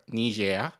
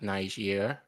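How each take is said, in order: First: The name is pronounced with French sounds. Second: The name is pronounced with English sounds.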